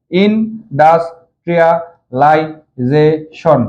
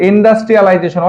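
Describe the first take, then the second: First: ইনডাস্ট্রিয়ালাইজেশন in six slow, separate beats; syllable by syllable. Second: Said in the usual way. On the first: Shown as a demonstration. Teacher breaks down a long spelling for pupils, ইনডাস্ট্রিয়ালাইজেশন said syllable by syllable. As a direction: pause between each syllable of ইনডাস্ট্রিয়ালাইজেশন. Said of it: "ছয় বারে উচ্চারণ হচ্ছে". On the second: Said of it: "অনেক বড় বানান".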